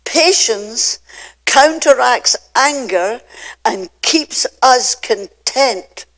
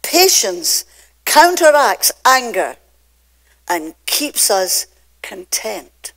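First: Whispered Patience, then counteracts pressed hard and slow; emphatic sermon line. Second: Counteracts hit loud, us drawn out slow; repeated for emphasis. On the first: Preacher to notes-takers, slow weighty emphasis. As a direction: stress counteracts, stretch out us. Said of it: "I want you to hear this". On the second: Preacher repeating the line to the congregation, heavy stress. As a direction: lean on counteracts, then slow down on us. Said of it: "I'm gonna say it again". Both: Shown as a demonstration.

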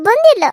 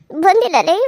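First: High, loud shouted refusal; villain yelling her refusal; angry shout. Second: Said in the usual way. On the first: Acted.

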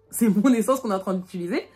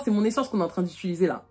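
First: "mon" pushed up and a bit louder; stress on mon. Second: Said in the usual way. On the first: Retold or imitated. Repeating to her friends, leaning hard on "mon". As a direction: lean hard on "mon", it's MY fuel.

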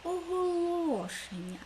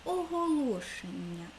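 First: Оголошення slow and high, ло drawn out; stress on ло. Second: Said in the usual way. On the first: Shown as a demonstration. Teacher highlighting the stressed syllable ло for pupils, high and slow. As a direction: sing out the ло in Оголошення. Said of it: "Наголошений склад ло". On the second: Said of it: "В слові оголошення".

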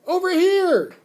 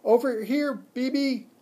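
First: Full high, very loud yell; piercingly high desperate holler; scream. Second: High, loud squeaky call; small animal calling out high and loud; squeaked at top of lungs. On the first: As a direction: scream for attention from across the room. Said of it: "I screamed". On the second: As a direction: squeak out to get her attention. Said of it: "squeaked at the top of my lungs". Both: A narrator's reading.

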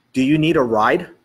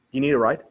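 First: Louder, measured repeat of the question; emphatic repeat. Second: Said in the usual way. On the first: Retold or imitated. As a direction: spell out "Do you need a ride" firmly. Repeats it after "Excuse me?.

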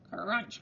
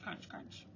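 First: Said in the usual way. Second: Soft, voiceless crunch, crunch; whispered crunch. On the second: A narrator's reading. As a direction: breathe the footsteps out in a whisper. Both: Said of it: "went the footsteps".

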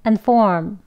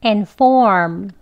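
First: "and form" with schwa first syllable; weak form. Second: "And form" with full first vowel, long "form"; careful "And", lengthened "form"; strong form. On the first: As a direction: reduce "and" to a short "un" before "form". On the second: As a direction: say "And form" clearly and emphatically. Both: Shown as a demonstration. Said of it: "각각 한 번씩 해볼게요".

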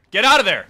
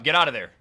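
First: Urgent shout. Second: Said in the usual way. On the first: Real, not acted. Player yells at his character to flee. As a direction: yell it, louder and sharper. Urging character away from boss.

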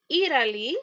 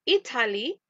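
First: Italy with a tapped, r-like T; American pronunciation. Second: Italy with a clearly sounded T; British pronunciation. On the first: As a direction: model American "Italy", as "Iraly". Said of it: "es inglés americano". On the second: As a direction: model British "Italy", T crisp and hard. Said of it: "es inglés británico". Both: Shown as a demonstration.

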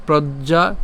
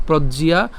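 First: "প্রজ্ঞা" as prod-ja, rising; two syllables, no i in "প্রজ্ঞা"; wrong pronunciation. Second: "প্রজ্ঞিয়া" as prod-ji-ya, rising; correct pronunciation. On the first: Teacher setting up the contrast, two-syllable "প্রজ্ঞা". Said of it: "not প্রজ্ঞা". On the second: Teacher giving the right form, three-syllable "প্রজ্ঞিয়া". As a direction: put an i-ya glide in "প্রজ্ঞিয়া". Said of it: "প্রজ্ঞিয়া, not প্রজ্ঞা". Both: Shown as a demonstration.

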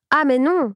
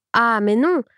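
First: Higher, an angry no that falls shut; firm angry no. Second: An angry no that rises at the end; indignant refusal. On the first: Farm wife closing the matter, angry and final. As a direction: slam the door on it. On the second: Farm wife rejecting the rich couple, indignant. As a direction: throw back the refusal, rising. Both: A narrator's reading. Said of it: "s'était levée toute furieuse".

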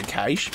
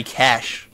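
First: Cache pronounced "kaysh", long A. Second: Cash with a short flat A; cache as "cash". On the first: Streamer giving his own pronunciation, cache as "kaysh". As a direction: say cache to rhyme with "aitch", with an "ay" vowel. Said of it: "but some people say cash". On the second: Streamer giving other people's pronunciation, short-A cash. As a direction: say cash just like money, short vowel. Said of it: "some people say". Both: Shown as a demonstration.

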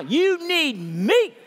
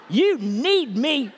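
First: Slow, loud, with a laugh; drawn out through laughter; laughing passionate call, much higher. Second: Loud, high and slow; drawn out with passion. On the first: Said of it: "You tell 'em back right now". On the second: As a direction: passionate slow call, much higher and louder. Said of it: "Say it with some passion". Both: Shown as a demonstration.

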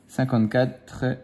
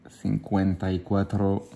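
First: Said in the usual way. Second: Put-on slow, lightly Spanish-accented "cinquante y cuatro"; mock Spanish. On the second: Dad reading the bingo number, in a hint of a Spanish accent. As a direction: play at counting in Spanish.

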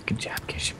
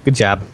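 First: Whispered, very soft remark; under the breath. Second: Said in the usual way. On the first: Real, not acted. Teammate commenting on the fall, under the breath. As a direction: say it almost silently to yourself.

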